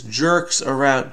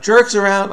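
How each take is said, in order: First: Said in the usual way. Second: Higher, louder burst of getting it; sudden realization. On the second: Real, not acted. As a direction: exclaim it as the answer clicks. Suddenly gets the clue.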